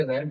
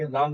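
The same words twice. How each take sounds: First: "रैम" with the English short a of "cat"; correct pronunciation. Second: "राम" with a long open aa vowel; wrong reading. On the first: Teacher correcting how learners read ram, correct "रैम" with an ae vowel. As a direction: say "रैम" with a front ae vowel, not aa. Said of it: "रैम पढ़ेंगे". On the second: Teacher showing learners how not to read ram, wrong reading "राम" with a long aa. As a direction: say "राम" like the Hindi name Ram. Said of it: "राम नहीं पढ़ेंगे". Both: Shown as a demonstration.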